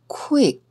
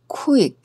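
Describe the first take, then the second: The two takes are said the same way.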